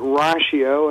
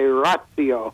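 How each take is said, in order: First: It is said in the ministry's own way. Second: It is said in a classical Latin way. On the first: "we're saying it ratio" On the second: "those who know Latin really well sometimes say ratio"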